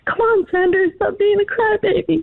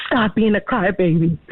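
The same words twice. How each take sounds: First: High-pitched schoolchild pleading; imitating other kids. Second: Understated teacher's scolding, at usual pitch; retold scolding teacher. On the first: Mother retelling classmates at school, imitating kids. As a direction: voice classmates in a much higher pitch. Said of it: "other kids, they're like". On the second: Mother retelling the teacher to the hosts, understated scolding. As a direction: quote the teacher's reprimand without raising the voice. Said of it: "And she said".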